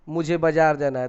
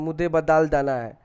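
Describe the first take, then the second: First: The words are pronounced clearly and normally. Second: The words are pronounced with a childish lisp.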